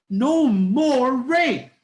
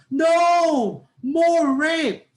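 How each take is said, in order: First: "No more rape" as one loud, high, drawn-out chant; slow loud slogan, "No more rape" in one unbroken falling phrase; rally protest intonation. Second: Shouted high "No", a pause, then drawn-out "more rape"; changed intonation, opposite meaning. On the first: Teacher demonstrating a rally cry to end it, one loud connected chant. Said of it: "First intonation".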